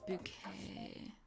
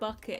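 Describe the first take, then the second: First: The name is said like the word bouquet. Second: The name is said like the word bucket. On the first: The speaker calls it right. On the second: The speaker calls it wrong.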